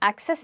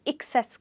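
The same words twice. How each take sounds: First: The stress is on the first syllable. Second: The stress is on the second syllable. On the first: The speaker calls it wrong. "ऊपर वाले word की तरह हम access नहीं कहेंगे" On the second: The speaker calls it right. "Access कहेंगे, और इसमें हम आ की जगह इक यूज करेंगे"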